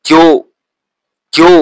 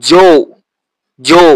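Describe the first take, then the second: The two takes are said the same way.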